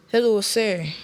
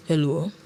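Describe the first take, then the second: First: Said in the usual way. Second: Low, toneless short greeting; unenthusiastic. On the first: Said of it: "Lorian said". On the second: A narrator's reading. Estranged husband answering his wife's call, without enthusiasm. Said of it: "Edward said without enthusiasm".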